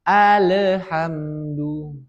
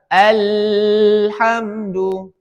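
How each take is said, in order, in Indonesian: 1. Bunyi l mendapat vokal gema yang memantul. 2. Bunyi l mengalir terlalu lama. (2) "Tidak boleh mengalirnya deras"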